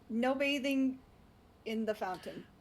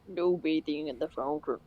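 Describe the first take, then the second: First: It is said in a normal voice. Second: It is said in a put-on guy voice.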